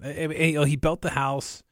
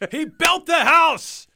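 First: It is said flatly, with little energy. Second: It is said with more energy and hype. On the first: It is plain information, not promotion. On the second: It is meant to build excitement.

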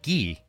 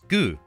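First: The vowel is an 'ee' sound. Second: The vowel is an 'oo' sound. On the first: This is the northern dialect form. "gi in the North" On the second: This is the southern dialect form. "as gu in the South"

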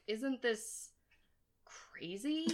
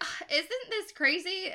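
First: It sounds troubled and unenthusiastic. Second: It sounds excited and amazed.

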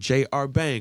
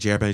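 First: The name is said slowly. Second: The name is said fast.

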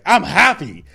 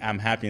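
First: It is screamed loudly with strong emotion. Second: It is said calmly at normal loudness. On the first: It is said with real emotion behind it. "and you scream it, and you put the motion behind it" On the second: It is a plain statement without feeling behind it. "So by saying I'm happy"

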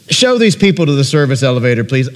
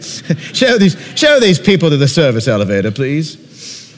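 First: It is spoken in the reader's ordinary accent. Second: It is spoken in a put-on British accent.

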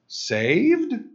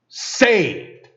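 First: It rises like an uncertain question. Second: It is said as a firm exclamation.

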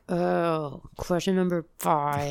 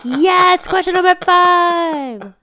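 First: It sounds flat and disappointed. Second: It sounds happy and excited.

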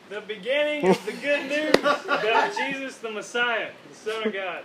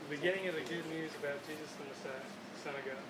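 First: It is read one volume level louder. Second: It is read at normal volume.

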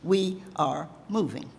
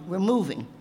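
First: It is said slowly and deliberately. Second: It is said at a normal pace.

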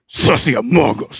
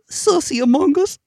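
First: It is said boldly, with strong confidence. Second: It is said hesitantly, with little confidence. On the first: The speaker calls it right. "that's a testosterone that I fucking love" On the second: The speaker calls it wrong. "You said that so unconfidently"

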